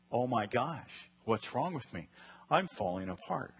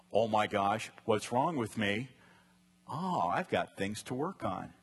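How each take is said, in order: First: Negative panicked take. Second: Positive calm take. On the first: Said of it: "The negative is". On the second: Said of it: "The positive side of the restless heart is". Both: Shown as a demonstration.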